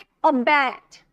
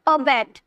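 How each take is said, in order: First: The stress is on the last syllable. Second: The stress is not on the last syllable. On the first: The speaker calls it right. "जोड़ दे रहे हैं ना, stress दे रहे हैं" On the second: The speaker calls it wrong. "ऐसे नहीं बोलेगा"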